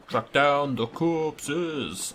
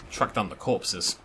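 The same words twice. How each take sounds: First: Drawn-out repeat. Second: Said in the usual way. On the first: Shown as a demonstration. Repeating the quest step to himself, very slow drawl. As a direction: stretch every word out very slowly, x0.3.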